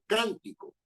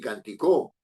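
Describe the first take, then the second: First: The stress is on the first syllable. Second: The stress is on the last syllable. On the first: The speaker calls it right. "la sílaba predominante está en can" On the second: The speaker calls it wrong. "ni canticó"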